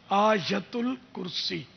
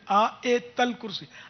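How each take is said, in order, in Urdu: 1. پہلا لفظ 'ayatul' کہا جاتا ہے، 'u' کے ساتھ۔ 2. پہلا لفظ 'ayat al' کہا جاتا ہے، بغیر 'u' کے۔ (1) "یا اور تا پر پیش" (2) "عوام اس کو آیت الکرسی بولتے"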